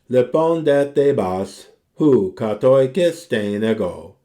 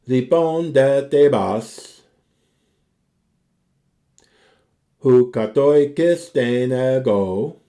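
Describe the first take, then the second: First: It is read at a normal, flowing pace. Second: It is read slowly, pausing at the break.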